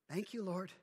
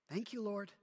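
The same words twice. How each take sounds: The two takes are said the same way.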